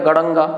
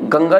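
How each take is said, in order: First: The nasal letter is sounded as an extra syllable. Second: The nasal blends into the next consonant, two syllables. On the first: The speaker calls it wrong. "ये तो हमारा उच्चारण ही बड़ा गलत हो जाएगा" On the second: The speaker calls it right. "गड़ंगा नहीं गंगा लिखा हुआ है"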